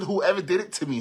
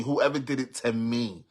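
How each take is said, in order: First: Quoting herself higher and louder; retold outburst. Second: Said in the usual way. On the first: Retelling her post to followers, louder and higher. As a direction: fling the words out like the original shout. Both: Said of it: "I said".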